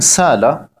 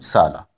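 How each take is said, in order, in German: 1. Ein Glottisschlag trennt die beiden mittleren Vokale. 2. Die Vokale gehen ohne Glottisschlag ineinander über.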